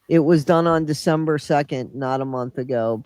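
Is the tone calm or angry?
calm. It is read in a calm, neutral tone.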